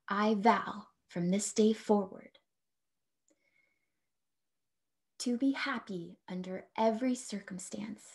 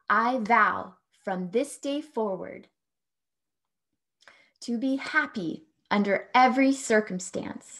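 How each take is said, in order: First: It is said softly at normal speaking level. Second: It is said loudly. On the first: "a little more softly in a speaking voice"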